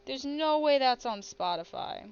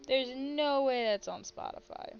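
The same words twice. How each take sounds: First: Disbelief. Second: Said in the usual way. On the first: Real, not acted. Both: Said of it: "I'm looking this up as we speak".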